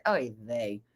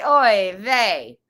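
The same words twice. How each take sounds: First: Low, soft mock disappointment; disappointed voice. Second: Loud, hammed-up Italian accent. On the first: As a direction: let it sink, quietly let down. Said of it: "that's my disappointed voice". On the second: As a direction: belt it out with a mock Italian lilt. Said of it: "say it with an Italian accent". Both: Shown as a demonstration.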